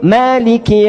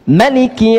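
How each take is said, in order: First: The first vowel is drawn out long. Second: The first vowel is kept short.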